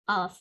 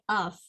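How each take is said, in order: First: The word is said low and unstressed. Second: The same.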